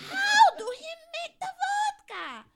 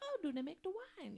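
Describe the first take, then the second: First: It is said in an overly emphatic voice. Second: It is said in a calm, restrained voice.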